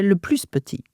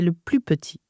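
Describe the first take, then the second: First: The s of plus is pronounced. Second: The s of plus is silent. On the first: The speaker calls it wrong. "But you don't say" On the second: The speaker calls it right. "You say"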